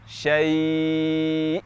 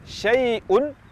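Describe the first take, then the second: First: The word ends abruptly on a stopped hamzah. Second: The word ends with a vowel and n sound. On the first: "kita wakafkan menjadi syai'" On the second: "misalnya di kata syai'un"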